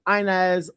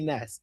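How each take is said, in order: First: The name is pronounced with anglicized sounds. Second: The name is pronounced with Spanish sounds. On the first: This is how most people say the name. "but everyone goes Inez" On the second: This is how the name is meant in Spanish. "it's supposed to be Ines in Spanish"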